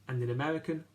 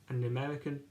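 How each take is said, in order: No difference in how they are said.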